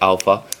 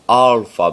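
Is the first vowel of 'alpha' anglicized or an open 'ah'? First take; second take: anglicized; open ah. First: The first vowel is said the English way. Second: The first vowel is an open 'ah' sound. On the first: "Like if you're saying it in English, you can say alpha" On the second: "You got to be proper and say alpha, ... pronounced a"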